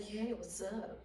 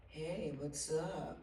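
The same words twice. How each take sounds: First: Imitating Paul again. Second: Imitating Paul. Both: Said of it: "That's a really good imitation".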